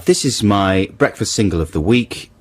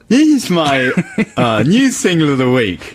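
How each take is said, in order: First: It is said without a smile in the voice. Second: It is said with a smile in the voice.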